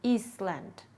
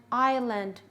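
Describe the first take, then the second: First: "Iceland" said as "eest-land", S sounded; silent S mispronounced. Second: Said in the usual way. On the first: Shown as a demonstration. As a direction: misread "Iceland" with an audible s and a short land. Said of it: "if it is pronounced".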